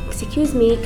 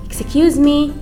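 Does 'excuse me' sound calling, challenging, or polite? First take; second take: polite; calling. First: It sounds soft and polite, like a request. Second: It rises loudly, like calling out to someone. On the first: The speaker is politely asking for help. "This is asking politely for help" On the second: The speaker wants someone's attention. "when I call someone, I raise my intonation"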